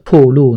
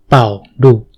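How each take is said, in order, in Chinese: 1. 第一个音节听起来像pu。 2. 第一个音节听起来像bao。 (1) "在台湾我们读成瀑布的瀑" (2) "对岸邻居他们会读成爆炸的爆"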